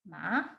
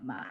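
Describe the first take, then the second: First: It is said higher without creak. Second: It is said with a creaky voice.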